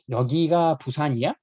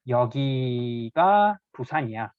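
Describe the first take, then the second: First: The pitch rises at the end of the sentence. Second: The pitch falls at the end of the sentence. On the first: It asks whether this place is Busan. "raise the intonation at the end of sentence here" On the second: It states that this place is Busan. "this is Busan"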